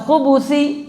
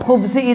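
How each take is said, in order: First: The b is followed by a u vowel. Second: The b has no vowel after it. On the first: It means male devils. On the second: It means evil in general.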